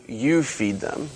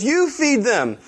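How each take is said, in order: First: Slow, soft, measured answer; calm reply. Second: High-pitched acted comeback; mock exasperated retort. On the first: Acted. Jesus answers his panicking disciples, calm and soft. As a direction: drop to a quiet, unhurried calm. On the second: Doctor Brian answers John on the mercy trip, mock exasperated retort.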